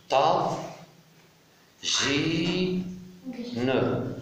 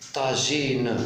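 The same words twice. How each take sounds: First: "ta, ji, ne" as isolated syllables, long pauses between; split into syllables. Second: Said in the usual way. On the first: Shown as a demonstration. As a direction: sound out "ta, ji, ne" one by one. (« ta, ji, ne » syllabe par syllabe, bien séparées) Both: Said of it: "je découpe le mot".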